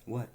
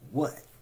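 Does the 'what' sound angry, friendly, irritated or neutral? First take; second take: neutral; irritated. First: It sounds plain and neutral. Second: It sounds impatient and irritated. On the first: The speaker simply asks what is wanted. "Neither mean nor nice or whatever. Straightforward" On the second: The speaker wants the other person to hurry up.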